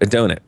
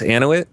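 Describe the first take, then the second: First: The name is said with a D sound. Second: The name is said without a D sound. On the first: The speaker calls it right. "That's right" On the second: The speaker calls it wrong. "I left the D out"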